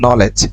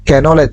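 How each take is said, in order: First: The word begins with an n sound, no k. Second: The word begins with a pronounced k sound. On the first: The speaker calls it right. "এটা হচ্ছে নলেজ" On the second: The speaker calls it wrong. "ক্যানলেজ এরকম বলতে পারবেন না"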